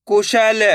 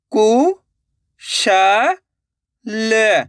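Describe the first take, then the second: First: Said in the usual way. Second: कु, श, ल with long gaps between; syllable by syllable. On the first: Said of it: "direct मात्रा का उच्चारण करके पढ़ेंगे". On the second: Shown as a demonstration. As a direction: sound out कु, श, ल one at a time. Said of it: "एक एक अक्षर का उच्चारण करके". (कु, श, ल एक-एक अक्षर रुक-रुक कर)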